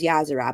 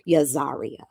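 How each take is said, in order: First: The name is said with three syllables. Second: The name is said with four syllables. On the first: This is the name's real pronunciation. The speaker calls it right. "We kept telling her it was Yazara" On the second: Someone else insisted on this pronunciation. The speaker calls it wrong. "she was insistent that it was Yazaria"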